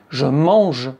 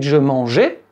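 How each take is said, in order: First: The verb ends in a neutral 'e' sound. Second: The verb ends in a clear 'é' vowel. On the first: The speaker is talking in the present. The speaker calls it right. "avec un E" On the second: It sounds like the speaker is talking in the past. The speaker calls it wrong. "c'est la phonétique de l'imparfait"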